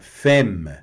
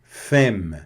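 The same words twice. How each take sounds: No difference in how they are said.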